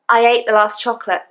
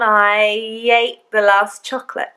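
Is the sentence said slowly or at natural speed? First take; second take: natural speed; slowly. First: It is said at a natural, quick speed. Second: It is said slowly and deliberately.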